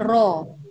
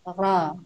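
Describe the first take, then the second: First: The vowel sounds like a clear o. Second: The vowel sounds between a and o. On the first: The speaker calls it wrong. "bukan ro" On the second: The speaker calls it right. "Yang benar adalah ra... antara A dengan O"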